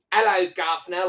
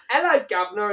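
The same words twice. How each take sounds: First: High, loud stagey Cockney greeting; mock Cockney accent. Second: High, loud Cockney hello called across the room; shouted mock Cockney. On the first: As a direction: call it out like a cartoon Londoner. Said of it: "I liked the accent there". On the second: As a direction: shout it like an over-the-top London cabbie. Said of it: "started shouting out".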